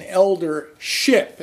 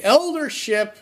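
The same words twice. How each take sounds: First: "elder ship" split in two, weight on ship; retelling the elder's stress on ship. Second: Said in the usual way. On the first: Retold or imitated. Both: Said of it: "he put the emphasis on the last word".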